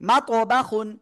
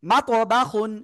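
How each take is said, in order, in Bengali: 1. 'ba'-র স্বরটি তাড়াতাড়ি আর হ্রস্ব করে বলা হয়। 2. 'ba'-র স্বরটি তাড়াতাড়ি আর হ্রস্ব করে বলা হয়।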